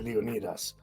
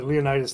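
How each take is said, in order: First: It is said with its original, actual pronunciation. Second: It is said the way the movie pronounces it. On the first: "but it's really Leonidas. That's how you would actually say it" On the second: "in the three hundred movie"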